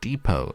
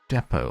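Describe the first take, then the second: First: It is said with an American pronunciation. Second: It is said with a non-American pronunciation.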